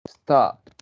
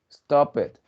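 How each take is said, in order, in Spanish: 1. El final es un solo sonido t. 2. El final es una sílaba extra, no una t simple. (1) "le añadimos el sonido t" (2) "el error está en que muchos estudiantes... dicen"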